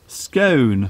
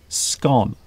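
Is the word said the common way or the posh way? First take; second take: posh; common. First: The word is said with the posh pronunciation. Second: The word is said with the common pronunciation. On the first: "the posh way is to say scone" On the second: "common people like me will say scone"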